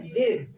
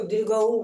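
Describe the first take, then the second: First: दीर्घ said crisply, ending on the g, no ऊ; दीर्घ का सही उच्चारण, बिना ऊ के; correct pronunciation. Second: दीर्घऊ with an added ऊ at the end; दीर्घ के अंत में ऊ जोड़कर गलत उच्चारण; wrong pronunciation. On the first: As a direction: say दीर्घ cleanly, with no vowel after the g. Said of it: "इसको क्या बोलते हैं?". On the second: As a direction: say दीर्घऊ, tacking an u sound onto दीर्घ. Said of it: "दीर्घऊ नहीं बोलते यहाँ". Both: Shown as a demonstration.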